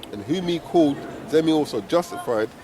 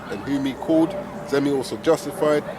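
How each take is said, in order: The two takes are said the same way.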